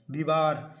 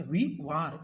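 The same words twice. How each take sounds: First: Said in the usual way. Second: "वी वार" said slowly as two separate parts, long वी; split into syllables. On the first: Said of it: "विवार मैंने मतलब कि वी वार". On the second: Shown as a demonstration. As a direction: break "वी वार" apart and stretch the वी. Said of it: "मतलब कि वी वार". ("वी वार" को धीरे-धीरे, दो हिस्सों में तोड़कर बोलना)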